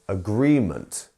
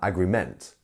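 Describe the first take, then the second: First: The stress is on the second syllable. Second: The stress is on the third syllable. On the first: The speaker calls it right. "It's the agree bit. It is agreement" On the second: The speaker calls it wrong. "or um, agreement"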